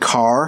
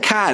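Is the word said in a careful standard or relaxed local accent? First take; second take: careful standard; relaxed local. First: The word is said in a careful standard accent. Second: The word is said in a relaxed local accent. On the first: This is how it is said when teaching. "when I teach English, I have to, you know, pronounce the word car like that" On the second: This is how it is said casually at home. "But when I'm at home and I'm chilling, I don't"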